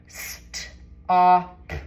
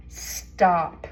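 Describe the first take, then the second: First: St-op with the st held and split off before op; emphasized digraph. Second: Said in the usual way. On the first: Shown as a demonstration. Teacher sounding out St-op for the kids with the st stretched. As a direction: lean on the st, then say op. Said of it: "make sure you emphasize the digraph". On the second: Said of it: "Let's blend it".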